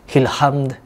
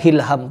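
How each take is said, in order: First: The word ends with a clear d sound. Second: The word ends without a final d sound. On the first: The speaker calls it right. "kalau tidak dilafazkan hilhamd" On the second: The speaker calls it wrong. "kadang salah"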